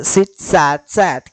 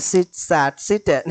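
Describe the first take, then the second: First: Sit, sat, sat with "sat" as both past forms; the right way, "sat" repeated at the end; correct form sat. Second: Sit, sat, sit with "sit" wrongly repeated as the last form. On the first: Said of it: "क्या pronounce होता है?". (सही रूप: Sit, sat, sat, दोनों बार "sat") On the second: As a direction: demo of the common mistake, "sit" said instead of "sat". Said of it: "लेकिन वो गलत है". (गलत रूप: sit, sat, sit, आख़िर में "sit" दोहराया गया) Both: Shown as a demonstration.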